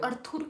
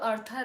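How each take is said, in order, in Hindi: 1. नाम एक गोल 'oor' ध्वनि से खत्म होता है। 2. नाम एक छोटी 'ur' ध्वनि से खत्म होता है। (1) "अर्थुर क्यों बोले?" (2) "अरे तो अर्थर है।"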